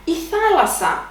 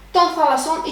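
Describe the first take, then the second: First: "thalassa" accented on its first syllable, THA, then falling; third-last syllable stress. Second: "thalasson" with the accent moved onto its last syllable; stress moved to ending. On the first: Teacher introduces a noun, stress on third syllable from end. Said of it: "accent on the third syllable". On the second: Teacher shows possessive plural, stress dropped to the last syllable. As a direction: stress the final "son" in "thalasson". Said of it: "first syllable from the end". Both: Shown as a demonstration.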